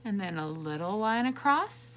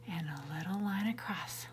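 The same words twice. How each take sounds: First: Said in the usual way. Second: Softer whispered "a little line across"; teacher whispering the stroke to the kids. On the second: Shown as a demonstration. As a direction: whisper it like a secret. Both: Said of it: "One straight line down".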